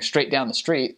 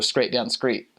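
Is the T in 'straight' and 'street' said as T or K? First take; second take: T; K. First: The words are said with a normal T sound. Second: The T in these words sounds like a K. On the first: "instead of going saying" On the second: "they would say"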